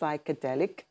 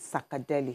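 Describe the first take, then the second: First: It is said as the full English psychedelic. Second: It is said as an African-style sakadeli. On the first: "the English word is psychedelic" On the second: "the African way is, I believe, is sakadeli"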